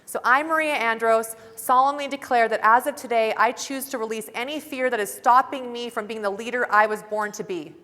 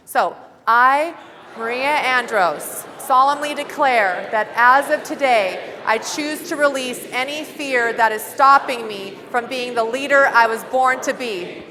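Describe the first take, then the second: First: Said in the usual way. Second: Loud, slow, declaring every word; full-force pledge. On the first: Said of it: "So I'm gonna do mine first". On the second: Shown as a demonstration. Leading the room in the pledge, loud and slow. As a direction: give it everything you've got. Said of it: "give it your, all you've frickin' got".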